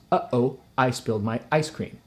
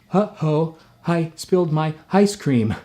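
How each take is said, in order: First: Vowels start with a sharp glottal catch. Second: Vowels start with a breathy h sound. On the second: "or I'd have to say"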